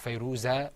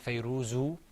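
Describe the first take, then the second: First: The name ends with an a vowel. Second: The name ends with an u vowel. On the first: "or Fayruza" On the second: "We didn't say Fayruzu"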